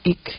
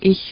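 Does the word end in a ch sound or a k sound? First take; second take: k sound; ch sound. First: The word ends in a hard k sound. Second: The word ends in a soft ch sound. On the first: This is the Berlin dialect form. "sino ich" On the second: This is the standard German form. "no dicen ich"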